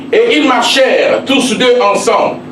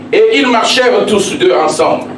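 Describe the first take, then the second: No difference in how they are said.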